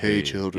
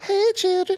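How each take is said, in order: First: The voice is low and deep. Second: The voice is high and light. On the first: "I bet he did deep voice" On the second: "we always picture him being like"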